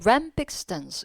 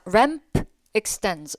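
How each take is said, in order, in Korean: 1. 두 단어는 붙어서 하나처럼 발음돼요. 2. 두 단어는 따로 발음돼요.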